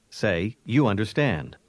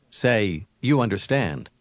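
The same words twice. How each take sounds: The two takes are said the same way.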